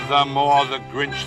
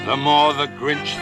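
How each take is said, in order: Both takes have the same delivery.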